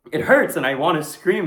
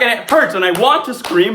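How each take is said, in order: First: Somewhat raised, holding the scream back; contained pain. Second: Loud, high, desperate cry; panicked outcry. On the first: Victim telling of being hurt, contained pain. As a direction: let pain break through, still held in. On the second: Victim pinned and hurting, panicked outcry. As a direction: push it to the edge of screaming. Same words, panic at its height. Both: Acted.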